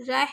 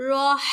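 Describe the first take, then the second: First: Clipped رہ with a short vowel; the wrong short رہ. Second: راہ with a full open long a. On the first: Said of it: "رہ نہیں پڑھنا". (غلط چھوٹا رہ) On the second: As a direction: stretch the vowel in راہ. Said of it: "راہ پڑھنا ہے". (راہ کو کھینچ کر) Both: Shown as a demonstration.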